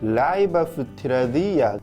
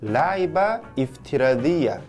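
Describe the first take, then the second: First: The words run together without a glottal stop. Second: A glottal stop separates the two words. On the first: The speaker calls it right. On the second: The speaker calls it wrong.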